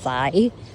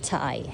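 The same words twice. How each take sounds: First: The word begins with a soft TH sound. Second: The word begins with a plain T sound. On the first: The speaker calls it wrong. "not Thai" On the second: The speaker calls it right. "yung T H is pronounced as T"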